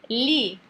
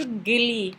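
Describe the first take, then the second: First: Li with the g silent; gli said as li. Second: Gli read with a hard g and l; spelled gli, wrong take. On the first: Teacher showing the right reading to learners, gli sounds as li. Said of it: "tá escrito li". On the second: Teacher showing the wrong reading to learners, a literal gli. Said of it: "não tá escrito gli". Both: Shown as a demonstration.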